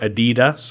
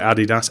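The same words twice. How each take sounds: First: The name is pronounced the American way. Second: The name is pronounced the non-American way. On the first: "I hear a lot of Americans call it Adidas" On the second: "I call I call it Adidas"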